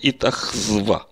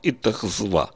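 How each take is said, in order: No difference in how they are said.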